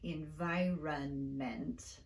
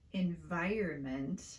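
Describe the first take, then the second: First: The R sound comes before the vowel. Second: The R sound comes after the vowel. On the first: This follows the spelling. "like it's spelled" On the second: This is how it is usually said. "We say environment"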